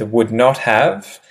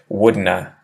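First: All three words are said fully and separately. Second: Reduced to two syllables, like wouldna. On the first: "you'll start with would not have" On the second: "if someone has a really strong Australian accent"

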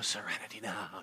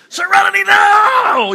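First: It is said softly and calmly. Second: It is yelled loudly and intensely.

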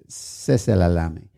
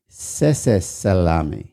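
First: The second word begins with an L sound. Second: The second word begins with an S sound. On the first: The speaker calls it right. "now that's too many S's. That's" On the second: The speaker calls it wrong. "I thought there was an extra S in it, so I used to say"

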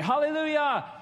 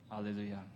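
First: It is shouted with excitement. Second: It is said flatly and mildly.

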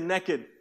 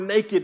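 First: It is said with a Southern US pronunciation. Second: It is said with standard pronunciation.

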